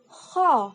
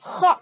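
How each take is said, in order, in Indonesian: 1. Serak tenggorokannya ringan dan lembut. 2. Serak tenggorokannya berat, seperti orang mendengkur. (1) "tidak boleh terlalu terdengar suara mengoroknya ya. Jadi ho" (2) "nggak boleh ho, ho. Nah, itu salah"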